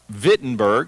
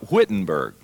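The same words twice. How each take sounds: First: The word begins with a V sound. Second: The word begins with a W sound. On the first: "you pronounce it like a V" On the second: "spelled like Wittenberg"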